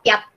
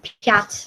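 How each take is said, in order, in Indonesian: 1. Bunyi t di akhir polos dan keras. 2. Bunyi t di akhir dilembutkan dengan sedikit bunyi akhir yang menggantung. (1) "kalau misalnya nggak ada miyaki znak ini bacanya cuma piat biasa" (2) "karena ada ada soft sign atau miyaki znak dibacanya jadi piat"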